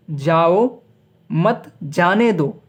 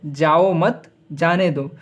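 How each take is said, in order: First: "जाओ", clear break, then slow "मत जाने दो"; pause after जाओ. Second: Slow "जाओ मत", break, then "जाने दो"; pause after मत. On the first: Teacher showing how the comma changes meaning, pause after "जाओ". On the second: Teacher showing the other comma position, pause after "मत". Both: Shown as a demonstration. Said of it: "कहने का अर्थ अलग-अलग है".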